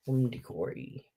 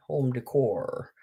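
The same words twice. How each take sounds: First: "decory" said with an extra ending, "dih-KOR-ee"; "home decory" with the added "-ee" on decor. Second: "decor" said as a soft whispered "day-KOR", no extra ending; "home decor" corrected, whispered "day-KOR". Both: Real, not acted.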